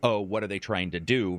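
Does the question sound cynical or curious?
cynical. It is said in a suspicious, cynical tone. The listener suspects a hidden bad motive. "turns into"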